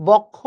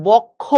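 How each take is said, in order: The two takes are said the same way.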